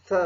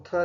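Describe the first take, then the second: First: थ as a soft th, as in thick; soft English th. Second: थ as a hard aspirated stop; hard Hindi th. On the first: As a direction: push air between tongue and teeth for थ. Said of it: "जो कि थोड़ा soft है". (थ का मुलायम अंग्रेज़ी उच्चारण) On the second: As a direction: say थ with a hard Hindi puff of air. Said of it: "वो थ नहीं बल्कि थ होता है". (थ का कठोर हिंदी उच्चारण) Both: Shown as a demonstration.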